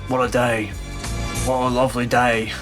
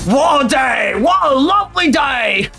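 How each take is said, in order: First: It is said calmly without shouting. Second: It is shouted loudly in a thick accent. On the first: "He would literally just say it like that. It wouldn't even be like shouted" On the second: "Try to do the fucking goofy ass, super like thick Australian accents"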